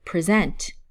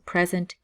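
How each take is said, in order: First: The stress is on the second syllable. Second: The stress is on the first syllable. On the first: It is a verb meaning to show something. "as a verb, the emphasis is on the second syllable" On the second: It is a noun meaning a gift. "the emphasis is on the first syllable"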